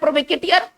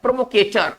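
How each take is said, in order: First: An extra ee syllable comes before the ending. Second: It ends in a short ter without ee. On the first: The speaker calls it wrong. "ऐसे तो पढ़ रहे हैं प्रोवोकेटियर" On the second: The speaker calls it right. "French origin के रूप में पढ़ेंगे तो कैसे पढ़ेंगे"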